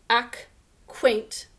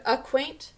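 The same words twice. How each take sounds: First: Acquaint with a full short A, /æk-weint/; spelling pronunciation. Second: Acquaint with a weak uh, /ə-kweint/; real pronunciation. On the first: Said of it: "We think to spell this word as acquaint". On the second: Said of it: "We pronounce this word acquaint". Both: Shown as a demonstration.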